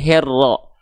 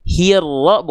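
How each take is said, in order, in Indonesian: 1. Vokal pertama terdengar seperti e. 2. Vokal pertama adalah i yang jelas. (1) "bukan herro" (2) "Hirro bukan herro"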